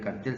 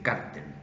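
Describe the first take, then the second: First: The stress is on the last syllable. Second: The stress is on the first syllable. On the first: This is the older local usage. "en vez de cartel" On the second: This is the newer usage copied from American films. "ahora ... se dice cártel"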